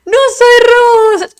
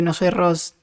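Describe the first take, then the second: First: Very high, slow squeaky voice on "No soy Rose"; silly high voice. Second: Said in the usual way. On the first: Pretend.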